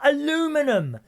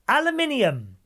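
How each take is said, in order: First: The word is said in the American form. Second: The word is said in the British form. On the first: The speaker calls it wrong. "to our American friends ... not aluminum" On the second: The speaker calls it right. "it's aluminium, my darlings"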